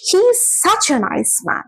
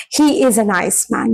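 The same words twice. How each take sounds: First: "such" lifted high and stressed; emphatic SUCH. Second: Said in the usual way. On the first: Shown as a demonstration. Teacher showing students the difference, emphatic stress on "such". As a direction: lean on "such" to intensify the praise. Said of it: "you can emote more strongly". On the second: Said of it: "you feel the difference".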